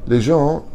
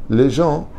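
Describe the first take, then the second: No difference in how they are said.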